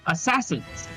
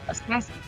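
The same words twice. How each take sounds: First: It is said more firmly. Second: It is said less firmly.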